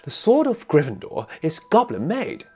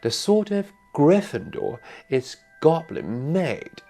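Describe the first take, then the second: First: It is said fast. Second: It is said slowly.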